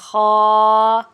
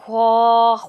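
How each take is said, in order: First: No w-sound follows the kh sound. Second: A w-sound follows the kh sound. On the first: The speaker calls it right. "ख़ा की आवाज़ आनी चाहिए" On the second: The speaker calls it wrong. "ख्वा नहीं पढ़ना"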